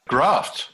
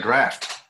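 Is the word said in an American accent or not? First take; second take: non-American; American. First: It is said in the speaker's non-American accent. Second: It is said in an American accent.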